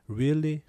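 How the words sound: It sounds awkward and exasperated, at a loss.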